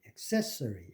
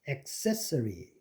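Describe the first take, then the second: First: The first vowel is reduced to a schwa. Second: The first vowel is a full A sound. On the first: The speaker calls it wrong. "accessory가 아니고" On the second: The speaker calls it right. "그 앞에 A가 슈어로 안 되고 제대로 A로 갑니다"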